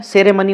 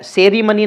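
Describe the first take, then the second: First: सेरेमनी said as se-re-muni; e in second syllable. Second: सेरेमनी said as se-ree-muni; ee in second syllable. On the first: Teacher giving the corrected form, सेरेमनी said se-re-muni. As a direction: keep an "e" after the r in सेरेमनी. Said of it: "सेरेमनी होता है". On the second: Teacher showing the rejected form, सेरेमनी said se-ree-muni. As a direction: put a long "ee" after the r in सेरेमनी. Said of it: "सेरेमनी नहीं होता है". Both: Shown as a demonstration.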